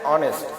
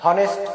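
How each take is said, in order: First: The word begins with a vowel sound. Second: The word begins with an h sound. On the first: The speaker calls it right. "এর উচ্চারণটা হচ্ছে অনেস্ট" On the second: The speaker calls it wrong. "এর উচ্চারণটা হনেস্ট এমন হচ্ছে না"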